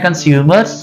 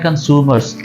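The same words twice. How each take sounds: First: It is said in a British accent. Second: It is said in an American accent. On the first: "British बोलते हैं" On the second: "American बोलते हैं"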